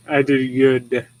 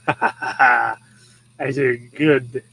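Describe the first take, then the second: First: Slow, smug dog voice; proud dog voice. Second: Smug, self-satisfied dog; proud dog voice. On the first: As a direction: voice the pleased dog, drawing out each word slowly. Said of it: "He's like". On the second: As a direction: say it again as the dog, very pleased with himself. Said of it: "That's the look in his eyeballs". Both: Retold or imitated.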